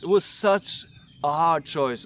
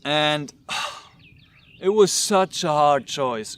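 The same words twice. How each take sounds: First: Said in the usual way. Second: Slow, heavy sigh before the words. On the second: Real, not acted. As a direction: let the weight of the choice slow you down.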